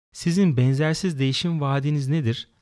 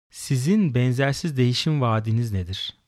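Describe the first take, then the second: The two takes are said the same way.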